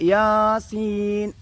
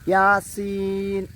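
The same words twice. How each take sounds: First: The first vowel is drawn out long. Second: Neither vowel is drawn out long. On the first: "യാനെ നീട്ടിയിട്ട് സീൻ" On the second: "അത് തെറ്റായ പാരായണമാണ്"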